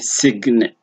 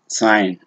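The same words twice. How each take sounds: First: The g is pronounced. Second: The g is not pronounced. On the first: The speaker calls it wrong. "the moment you try to say sign, yeah, then you can see the problem" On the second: The speaker calls it right. "You say sign"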